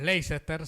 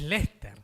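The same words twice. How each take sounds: First: It is said with three or more syllables. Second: It is said with only two syllables. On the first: "nosotros llamaríamos Leicester, si lo leemos en castellano" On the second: "es Leicester. Le faltan cinco letras"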